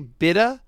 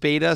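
First: The word is pronounced the British way. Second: The word is pronounced the American way.

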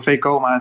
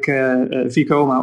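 First: The name is pronounced the Dutch way. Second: The name is pronounced the English way. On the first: This is how Dutch people say it. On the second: This is how foreigners usually say it.

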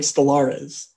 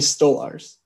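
First: The name has an extra syllable before the end. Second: The name ends in a plain two-syllable form. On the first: The speaker calls it wrong. "you said like Stolarez" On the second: The speaker calls it right. "Anthony Stolarz"

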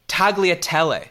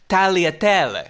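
First: The G sound is pronounced. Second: The G sound is silent. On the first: The speaker calls it wrong. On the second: The speaker calls it right.

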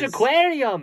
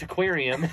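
First: The word begins directly with its vowel. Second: An extra consonant sound comes before the word. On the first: The speaker calls it right. "it's just aquarium. You don't say that other sound" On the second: The speaker calls it wrong. "why is there a T in front of aquarium? It's not"

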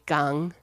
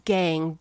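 First: It is pronounced the German way. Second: It is pronounced the plain English way.

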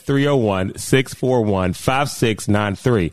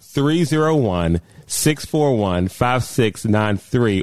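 First: The number is read out quickly. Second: The number is read out slowly.

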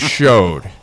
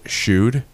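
First: The vowel sounds like the one in 'show'. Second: The vowel sounds like the one in 'shoe'. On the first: The speaker calls it right. "because it's actually showed" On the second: The speaker calls it wrong. "If you ever want to make a past master freak out, pronounce it shewed"

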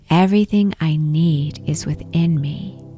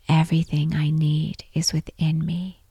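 First: It is said aloud in a strong voice. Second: It is said aloud in a normal voice. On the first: "repeat the affirmation out loud in a strong voice" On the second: "repeat this affirmation in your normal voice"

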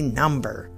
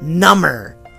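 First: The b sound is pronounced. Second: The b sound is silent. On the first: A numeral. "can also be number" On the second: More numb. "my finger went number"

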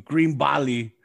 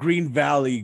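First: It is said in a heavy Mexican accent. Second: It is said in a plain accent.

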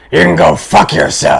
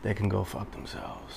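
First: It is said loudly, with force. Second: It is said at normal volume.

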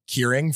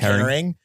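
First: The first vowel sounds like 'keer'. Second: The first vowel sounds like 'care'. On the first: The speaker calls it wrong. "I called it Keering for a long time" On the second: The speaker calls it right. "And it is caring"

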